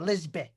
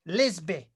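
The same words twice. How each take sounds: First: It is said in a Lancashire accent. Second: It is said in his usual neutral accent.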